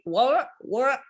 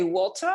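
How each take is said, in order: First: "water" said American-style, the middle T swallowed; hesitant American "water", T dropped; US pronunciation attempt. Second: Said in the usual way. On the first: Shown as a demonstration. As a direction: tentatively say "water" the US way, without a crisp T. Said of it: "in the U S". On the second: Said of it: "if you want to say".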